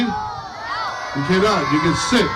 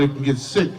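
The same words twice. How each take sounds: First: Shout. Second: Said in the usual way. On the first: Real, not acted. Shouting the answer at the kids.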